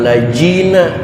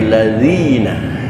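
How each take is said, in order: First: The middle consonant is a 'j' sound. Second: The middle consonant is a 'dh' sound. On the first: The speaker calls it wrong. "bukan lajina" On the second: The speaker calls it right. "tapi ladzina"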